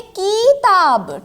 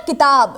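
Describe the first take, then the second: First: किताब said with a long stretched first vowel, "kiiii-taab"; exaggerated long "kii" in किताब; wrong pronunciation demo. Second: Said in the usual way. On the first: Shown as a demonstration. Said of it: "हम लोग ये नहीं बोलते हैं". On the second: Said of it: "उच्चारण किसका होता है?".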